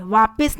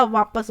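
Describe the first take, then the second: First: वापस said as vaapis; an i before the final s of वापस; wrong form. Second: वापस as vaapas; short a before the final s of वापस; correct form. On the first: Teacher showing the mistake, वापस pronounced vaapis. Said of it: "वापस नहीं होता". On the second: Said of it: "वापस होता है". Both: Shown as a demonstration.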